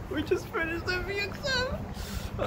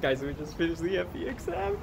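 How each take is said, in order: First: High, slow excited squeal. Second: Said in the usual way. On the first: Real, not acted. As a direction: stretch it out, thrilled and squeaky.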